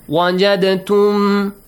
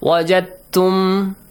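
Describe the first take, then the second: First: The d is released with a short echoing bounce. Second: The d merges smoothly into the following t. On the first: The speaker calls it wrong. "Either you apply the قلقلة rule" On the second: The speaker calls it right. "it becomes easier to pronounce, more fluent, more softly"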